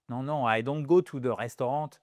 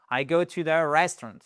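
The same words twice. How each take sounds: First: Restaurant said the French way, ending in a nasal vowel; French-style restaurant. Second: Restaurant said the English way, with a clear n. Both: Shown as a demonstration.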